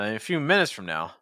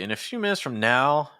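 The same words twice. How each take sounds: First: The word minutes carries the stress. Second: The word now carries heavy stress. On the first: The speaker calls it right. "I probably would stress minutes, not now" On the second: The speaker calls it wrong. "you're stressing now pretty heavy"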